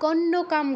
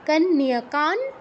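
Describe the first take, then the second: First: The word ends with an m sound. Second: The word ends with an n sound. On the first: The speaker calls it wrong. "কন্যকাম কিন্তু নয়" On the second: The speaker calls it right. "অনুসারের জায়গায় নয় হসন্ত যেহেতু পরে ত আছে"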